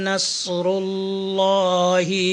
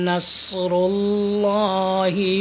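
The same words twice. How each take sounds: The two takes are said the same way.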